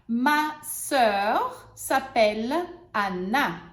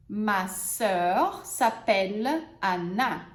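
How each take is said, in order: First: Slow, clear example; teacher models the sentence. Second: Teacher repeats the example; slow model sentence. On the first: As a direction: model it slowly. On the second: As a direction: repeat it slowly and calmly. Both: Shown as a demonstration. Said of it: "vamos usar os exemplos agora".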